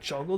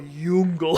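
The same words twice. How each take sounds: First: The word begins with a J sound. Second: The word begins with a Y sound.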